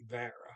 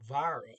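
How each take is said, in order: First: The vowel is like 'dad' followed by an R. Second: The vowel is not like the 'a' in 'dad'. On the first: The speaker calls it right. "Now it sounds like Vara" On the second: The speaker calls it wrong. "I've been saying Vara up until this point"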